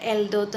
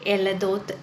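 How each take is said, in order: First: The L and D are said together without a vowel. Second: A vowel is heard between the L and D. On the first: The speaker calls it wrong. "ചിലവർ പ്രൊനൗൺസ് ചെയ്യുമ്പോൾ എൽദോത്ത് എന്ന് പറഞ്ഞു കേട്ടിട്ടുണ്ട്" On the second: The speaker calls it right. "എലദോത്ത് എന്നാണ് ശരിക്കും അത് എഴുതുന്നത്"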